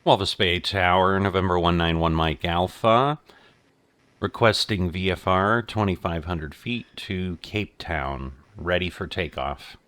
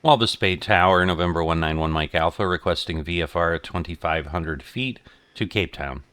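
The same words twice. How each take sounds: First: Loud, crisp radio call; pilot over the radio. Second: Loud, brisk radio call; pilot over the radio. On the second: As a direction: call the tower again, crisp and fast. Repeated radio call to tower. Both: Real, not acted.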